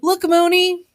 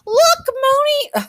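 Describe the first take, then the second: First: It is said in the narrator's own normal voice. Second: It is said in Sun's put-on character voice.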